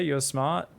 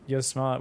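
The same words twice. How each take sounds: First: "smart" lifted with a rising tune; stress on smart. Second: "You're" hit first, "smart" falling; stress on you're. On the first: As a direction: lean on the word "smart" and let it rise. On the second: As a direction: punch "You're", drop "smart". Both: Shown as a demonstration.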